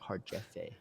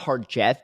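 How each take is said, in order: First: The name ends smoothly with an added vowel. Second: The name ends abruptly on a hard consonant. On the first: The speaker calls it right. "It's like Harjefe" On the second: The speaker calls it wrong. "It's not Harjeff"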